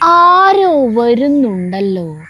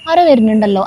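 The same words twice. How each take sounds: First: It is drawn out in an exaggerated singsong tune. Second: It is said plainly, like ordinary everyday speech. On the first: It suits the stage, where the audience must grasp it. "ഇങ്ങനത്തെ ഒരു ട്യൂണില്" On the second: It suits film, where the camera shows the rest. "അങ്ങനെ പറഞ്ഞാ പോലെ"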